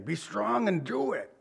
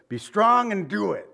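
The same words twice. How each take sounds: First: Softer, gently fatherly take on "Be strong and do it"; lightly voiced dad giving quiet encouragement. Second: Higher, louder rousing charge; rally him like a father sending his son off; David's charge. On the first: Preacher voicing a father's encouragement, softly. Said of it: "It sounds like a dad thing". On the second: Retold or imitated. David charging his son Solomon, rousing and higher. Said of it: "I like what he says".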